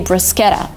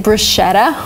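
First: The middle consonant is a hard 'sk' sound. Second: The middle consonant is a soft 'sh' sound. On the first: The speaker calls it right. "You can't say sh there because it's an Italian word" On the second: The speaker calls it wrong. "I've heard a lot of people say bruschetta, which is not right"

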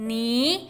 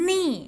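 First: The pitch rises from middle to high. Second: The pitch falls sharply from high.

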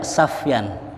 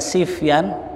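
First: The first syllable has the vowel a. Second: The first syllable has the vowel i. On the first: "boleh dibaca Safyan" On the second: "boleh dibaca Sifyan"

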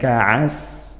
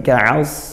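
First: The s-sound is thin, with no raised tongue back. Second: The s-sound is thick, with the tongue back raised. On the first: The speaker calls it wrong. "bukan ka'as" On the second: The speaker calls it right. "tapi ka'as"

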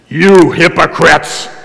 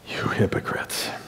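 First: It is said as a harsh, angry accusation. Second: It is said in a gentle, good-humored way.

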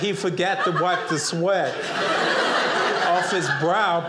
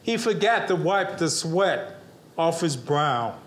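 First: It is spoken slowly and deliberately. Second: It is spoken at a normal pace.

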